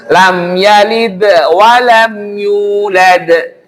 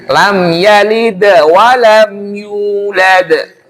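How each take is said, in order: The two takes are said the same way.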